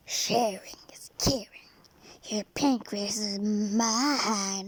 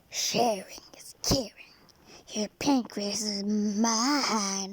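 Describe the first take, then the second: First: It is said in an evil hellish voice. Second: The same.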